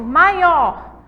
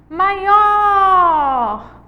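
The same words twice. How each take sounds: First: Said in the usual way. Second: Maior with OR held long, high and loud; calling the word. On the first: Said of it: "é simplesmente chamar". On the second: Shown as a demonstration. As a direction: shout out "Maior", stretching the or. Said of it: "O or é a sílaba tônica". (chamar "Maior" alto, alongando o or)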